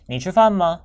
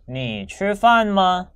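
First: The phrase is said more quickly. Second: The phrase is said at a normal speed. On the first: "더 빨리" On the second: "한 번 더"

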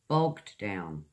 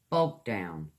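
Both takes have the same delivery.

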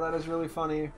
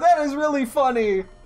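First: It is said flatly, with little enthusiasm. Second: It is said with exaggerated, over-the-top excitement.

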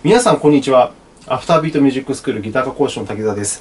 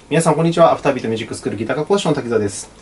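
First: Every syllable is said out in full. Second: Syllables are clipped and run quickly together.

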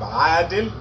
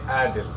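First: The word starts with a throat consonant. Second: The word starts with a plain vowel. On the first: "we have adil" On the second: "they say adil, so that is A"

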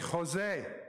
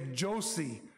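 First: The name begins without a J sound. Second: The name begins with an English J sound. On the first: The speaker calls it right. "They say Jose" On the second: The speaker calls it wrong. "they don't say Josie"

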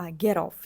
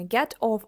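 First: The final t runs into the vowel. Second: The two words are said separately. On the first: The speaker calls it right. "а get off. Чуєте, тому що о у нас голосна" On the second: The speaker calls it wrong. "Знову я кажу не get off"

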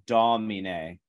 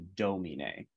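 First: The O vowel is open. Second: The O vowel is closed. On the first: The speaker calls it right. "or domine, right" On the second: The speaker calls it wrong. "as opposed to domine"

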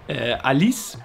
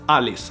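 First: The name is said with French pronunciation. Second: The name is said with Swedish pronunciation. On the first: "in French is Alice, I think, with a French accent" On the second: "But in Swedish, it's Alice"

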